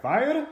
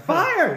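First: "Fire" as a high rising question; questioning lift on "Fire", acted; puzzled echo. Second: "Fire" shouted high and loud; very high, emphatic shout of "Fire", acted; insistent shout. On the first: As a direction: ask "Fire" back, pitch climbing up. Chef puzzled, echoes as question. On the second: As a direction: yell "Fire" to make him understand. Shouting it back to the chef.

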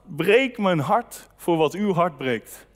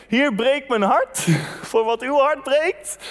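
First: Slow, earnest prayer with "breek" leaned on. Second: The same prayer through a chuckle, slowed; prayer quoted laughing. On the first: Preacher quoting the prayer he prayed on the trip, slow and earnest. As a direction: pray "breek mijn hart" slowly, meaning every word. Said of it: "heb ik gebeden". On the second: Preacher warning his congregation about this prayer, laughing. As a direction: laugh mid-prayer at how risky "breek mijn hart" is. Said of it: "Als je ooit bidt". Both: Retold or imitated.

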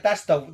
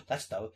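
First: Louder, livelier take of the same words; old Spock as the host would have loved it; wished-for Spock quote. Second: Put-on low, soft, trailing old Spock; old Spock muttering as he recognises Khan; muttered Spock quote. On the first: Retold or imitated. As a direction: say it up and clear, with punch. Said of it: "I would've loved it if he was like". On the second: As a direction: mumble it away under the breath. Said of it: "And old Spock goes".

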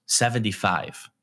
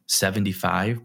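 First: Slow, flat "Seventy-five." as a plain statement; flat blunt answer. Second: "Seventy-five?" with a rising question tune. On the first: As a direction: say "Seventy-five." slowly with a falling end, matter-of-fact. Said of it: "he just looks back at me and goes". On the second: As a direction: ask "Seventy-five?" and lift the end like a puzzled question. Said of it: "Like, in that tone". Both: Retold or imitated.

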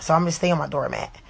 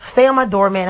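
First: Said in the usual way. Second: "Stay" punched, whole phrase louder; stress on STAY. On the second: Shown as a demonstration. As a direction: hammer home "Stay on my doormat".

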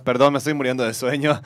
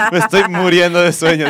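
First: Said in the usual way. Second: Talking through a yawn. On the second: Real, not acted. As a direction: yawn out the words.

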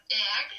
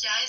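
First: JEG said as "eg", without the y; Bergen dialect pronunciation. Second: JEG said as "yai"; standard Norwegian pronunciation. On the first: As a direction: hit "jeg" as a loud Bergen "eg". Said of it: "sagt man". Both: Shown as a demonstration.

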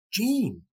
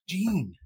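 First: Put-on higher, eager kid calling Gene; like a young kid. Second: Eager fan calling out Gene; like a young kid. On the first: Starstruck fan calls to his idol, higher eager kid. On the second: Retold or imitated. Fan greeting his hero like a young kid. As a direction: greet him like an excited kid. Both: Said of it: "like a young kid".

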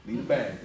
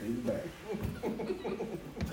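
First: Said in the usual way. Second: Slow laughing drawl. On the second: Shown as a demonstration. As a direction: stretch it out while laughing. Repeats line, second take drawn out.

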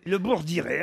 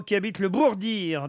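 First: Bourdiré with a clear final é, bour-di-RÉ; Bourdiré said carefully with the é added at the end; corrected place name. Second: Bourdir said with no final é, ending on the r; mispronounced place name. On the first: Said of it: "donc c'est le Bourdiré". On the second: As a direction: Bourdir clipped short as bour-DIR. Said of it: "Le Bourdiré, ça s'appelle". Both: Real, not acted.

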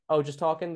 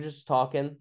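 First: Higher-pitched doubting cop; sceptical echo. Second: Said in the usual way. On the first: Retold or imitated. Cop questioning a teen's excuse, sceptical. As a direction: echo it back as a mock question.

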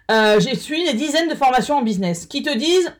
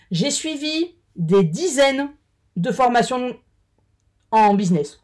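First: Said in the usual way. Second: Halting, slow between sips; talking around a drink; while sipping a drink. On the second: Real, not acted. (en buvant une gorgée) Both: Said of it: "Pardon, je bois un coup".

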